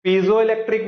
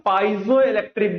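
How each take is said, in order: First: Piezoelectric said as pee-zo-electric, no "pai" at the start; pee-zo pronunciation. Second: Piezoelectric said as pai-zo-electric, opening like "pie"; pie-zo pronunciation. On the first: Teacher showing students the first way people say it, pee-zo. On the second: Teacher showing students the second way people say it, pie-zo. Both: Shown as a demonstration. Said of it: "दो तरीके से लोग pronounce करते हैं".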